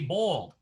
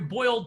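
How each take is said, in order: First: Boiled is said in a Southern American accent. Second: Boiled is said in a plain standard accent. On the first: The speaker calls it right. "you have to say boiled" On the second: The speaker calls it wrong. "You can't go into a store like the Piggly Wiggly in the South and say"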